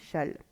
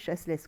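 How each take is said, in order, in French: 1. Le nom se dit sans aucun son S. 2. Le nom se dit avec les deux S prononcés. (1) "les deux S ne se prononcent pas. Voilà, on dit shall" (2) "ça s'écrit chasseless"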